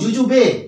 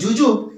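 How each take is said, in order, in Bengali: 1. শব্দটি শেষ হয় একটি যুক্ত e স্বরধ্বনি দিয়ে। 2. শব্দটি শেষ হয় একটি খাঁটি b ব্যঞ্জন দিয়ে। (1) "অনেকে কি বলেন বর্গীজেরস্যু বর্গীজেরস্যু বয়ে একার" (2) "অনেকে উচ্চারণ করেন বর্গীজেরস্যু বর্গীজেরস্যু ব"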